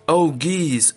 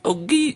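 First: It is read in a plain speaking voice. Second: It is read imitating the honk of a goose.

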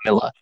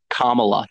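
First: The vowel is pronounced as an I sound. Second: The vowel is pronounced as an A sound. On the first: The speaker calls it wrong. "You're pronouncing it as if it had an I" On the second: The speaker calls it right. "It has an A"

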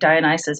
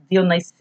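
First: The name has a familiar English pronunciation. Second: The name has a Greek-style pronunciation. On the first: This is how the speaker usually says it. "I always say Dionysus" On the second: This is how someone else said it. "he's like Dionysus or something"

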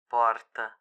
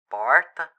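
First: The R is made back in the throat. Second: The R is light and not dragged. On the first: "pronunciar o R usando a garganta em vez da língua" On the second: "Você pode falar sem arrastar o R"

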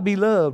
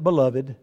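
First: It is said with a Georgia pronunciation. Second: It is said with the usual standard pronunciation. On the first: "is how you say it from Georgia" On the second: "Now I know we call it beloved"

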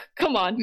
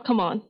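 First: It is said forcefully and emphatically. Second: It is said softly, without force.

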